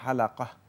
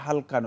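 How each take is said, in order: First: The word has three syllables, with a middle vowel. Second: The word has two syllables, no middle vowel. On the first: This is the original Arabic form. The speaker calls it right. "এটা আরবিতে হালাকা" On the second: This is the form altered in local usage. The speaker calls it wrong. "তবে এটাকে হালকা নয়"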